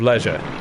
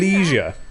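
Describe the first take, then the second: First: It is said with a British pronunciation. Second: It is said with an American pronunciation. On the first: This is how people in England say it. "which is how we pronounce the word" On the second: Someone copying American speech said it. "he started saying leisure"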